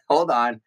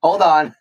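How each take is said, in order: First: Said in the usual way. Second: Raised, higher, louder; urgent call to stop. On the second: Pretend. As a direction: halt them sharply. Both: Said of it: "Wait, I need dinner first".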